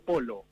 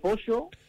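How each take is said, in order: First: The middle consonant is a plain L sound. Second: The middle consonant is the Spanish LL sound.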